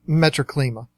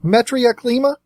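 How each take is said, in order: First: The name begins with the sounds 'metro'. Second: The name begins with the sounds 'metria'. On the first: The speaker calls it wrong. "I've always called it" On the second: The speaker calls it right. "I believe it's actually pronounced"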